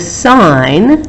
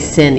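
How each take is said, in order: First: The vowel is long, rhyming with 'line'. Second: The vowel is short, rhyming with 'pin'. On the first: The speaker calls it right. "We say the sine" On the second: The speaker calls it wrong. "we don't say sin"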